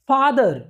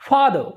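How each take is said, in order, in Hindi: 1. आखिरी सिलेबल पूरे ज़ोर से बोला जाता है। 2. आखिरी सिलेबल हल्का और रिड्यूस्ड बोला जाता है। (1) "लास्ट वर्ड पे भी पूरा फोकस डाल देते हैं" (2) "बोलना क्या है"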